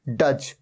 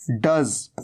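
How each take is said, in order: First: डज as "duj", with j; students' j mistake. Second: डज as "duz", low pitched; correct z ending. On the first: Teacher imitating students' wrong "duj". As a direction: end डज on a j sound. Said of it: "कई students कहते हैं डज". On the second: Teacher answering with the right "duz". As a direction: end डज on a buzzing z. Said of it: "ये क्या है?". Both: Shown as a demonstration.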